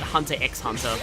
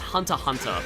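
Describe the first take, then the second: First: An 'x' sound is spoken between the words. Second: No sound is spoken between the two words. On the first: The speaker calls it wrong. "I always say it Hunter x Hunter" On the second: The speaker calls it right. "Apparently it's pronounced Hunter Hunter"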